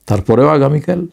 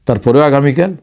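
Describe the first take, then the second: No difference in how they are said.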